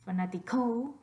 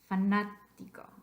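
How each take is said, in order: First: The stress is on the fourth syllable. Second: The stress is on the second syllable. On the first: The speaker calls it wrong. "put your voice stress on the last syllable" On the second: The speaker calls it right. "It's the third syllable back"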